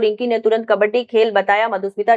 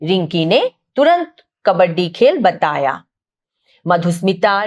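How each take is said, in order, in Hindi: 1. यह बिना किसी विराम के आगे चलता है। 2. वाक्य खत्म होने के बाद यह रुकता है। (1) "कहीं ना मैं रुकी" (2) "सारे विराम चिन्ह लगा दिए हैं"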